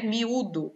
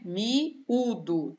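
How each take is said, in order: First: Said in the usual way. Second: "Miúdo" broken as mi, ú-do; split into syllables. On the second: Shown as a demonstration. Teacher showing students the hiatus, split into syllables. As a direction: pause between "Mi" and "údo" in "Miúdo".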